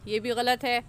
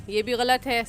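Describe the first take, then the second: The two takes are said the same way.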